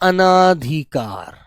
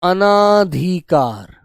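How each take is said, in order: First: The vowel after 'an' is a long 'aa'. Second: The same.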